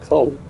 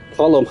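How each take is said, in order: First: The name is said with an American pronunciation. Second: The name is said with an Irish pronunciation. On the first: The speaker calls it wrong. "not Colm. But it's just American Americanizing things" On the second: The speaker calls it right. "it's Colm O'Driscoll"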